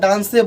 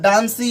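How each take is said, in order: First: The word ends with an added 'e' vowel. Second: The word ends with an added 'ee' vowel. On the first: "डांसी या डांसे बोलेंगे तो वो गलत हो जाएगा" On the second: "डांसी या डांसे बोलेंगे तो वो गलत हो जाएगा"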